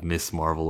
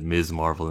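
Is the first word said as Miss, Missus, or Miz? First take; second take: Miss; Miz. First: The first word is said with a hissing s. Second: The first word is said with a buzzing z. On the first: The speaker calls it wrong. "instead of Miss Marvel" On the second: The speaker calls it right. "where people pronounce it Miz Marvel"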